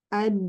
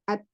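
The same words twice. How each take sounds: First: The final d carries a flowing sound. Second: The final d ends abruptly without flow. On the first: "Kalau Yaman, ketika bertasdid, memiliki suara, uh, aliran suara pada dal" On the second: "harusnya kalau Syam"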